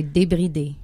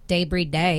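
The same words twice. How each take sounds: First: "[name]" said the French way, "day-bree-DAY" with short, pure vowels; French pronunciation. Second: "Débris day" said "DAY-bree day", with English vowels; English Anglophone accent. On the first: Singer shows host the other way to say her album title, French pronunciation. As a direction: say "[name]" as French dé-bri-dée, no English glides. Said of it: "Or you could say". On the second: Singer offers host an easier way to say her album title, English Anglophone accent. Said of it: "Say it with the English Anglophone accent". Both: Shown as a demonstration.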